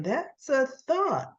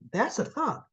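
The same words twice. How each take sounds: First: Drawn out and higher, savoring the idea; slow thoughtful musing. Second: Said in the usual way. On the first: Retold or imitated. Ashley mulling over Tucker's proposal, slow and musing. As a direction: let the thought sink in slowly. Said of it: "She's thinking". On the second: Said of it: "She goes".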